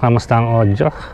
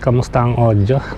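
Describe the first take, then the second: First: The voice is recorded about ten meters away. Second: The voice is recorded about thirty meters away. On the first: "mga approximately mga ten meters away" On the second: "nasa thirty meters away"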